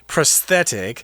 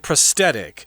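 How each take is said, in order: First: The middle consonant is a th sound. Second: The middle consonant is a plain t sound. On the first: The speaker calls it right. "you're technically supposed to say prosthetic" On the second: The speaker calls it wrong. "A lot of people just say prosthetic"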